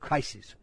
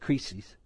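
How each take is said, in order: First: The word sounds like English crisis. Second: The word is not said like English crisis. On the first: This is the speaker's preferred way. "I like crisis because it's like crisis" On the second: This is how others pronounce it. "they pronounce it"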